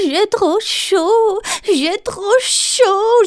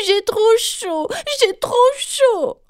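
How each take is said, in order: First: High, slow whimpering little voice; whining Galipette. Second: High, slow wailing complaint; trumpeting Galipette. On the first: The left hand Galipette complains of the heat, high slow whine. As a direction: moan it out like a hot little hand. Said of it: "gémissait Galipette". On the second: Galipette blares her complaint again, high and slow. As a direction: wail it out at the top of her voice. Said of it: "s'est remise à claironner à tue-tête". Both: A narrator's reading.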